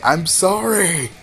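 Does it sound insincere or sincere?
sincere. It sounds earnest and sincere.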